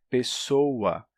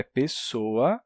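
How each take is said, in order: First: "pessoa" drawn out with a U glide; inserted U glide. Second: Said in the usual way. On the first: Shown as a demonstration. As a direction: stretch "pessoa" slowly into pe-SSO-ua. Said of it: "você tá colocando um U aí". ("pessoa" arrastado, com U: pessôua) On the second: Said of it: "A palavra é pessoa".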